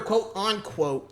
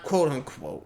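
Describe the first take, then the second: First: The middle sounds like the word 'on'. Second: The middle sounds clearly like 'unquote'. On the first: "you can definitely hear quote unquote" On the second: "not quote unquote"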